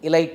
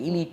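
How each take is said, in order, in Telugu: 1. రెండవ అచ్చు 'eye' లాగా పలుకుతుంది. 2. రెండవ అచ్చు 'ee' లాగా పలుకుతుంది. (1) "ఎలైట్ అనకూడదంట" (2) "ఎలీట్ అనాలంట"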